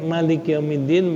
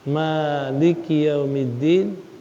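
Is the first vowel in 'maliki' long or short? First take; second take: short; long. First: The first vowel of maliki is kept short. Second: The first vowel of maliki is drawn out long. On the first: God is the king of the Day of Judgement. "Kalau pendek" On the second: God is the owner of the Day of Judgement. "pemilik pada hari kiamat"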